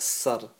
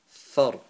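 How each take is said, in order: First: The syllable begins with an s sound. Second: The syllable begins with a th sound. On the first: The speaker calls it wrong. "So it's not a s sound" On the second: The speaker calls it right. "it's a th, like think and thought in English"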